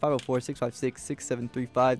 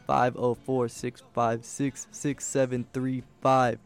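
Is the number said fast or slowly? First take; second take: fast; slowly. First: The number is said very fast. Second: The number is said more slowly.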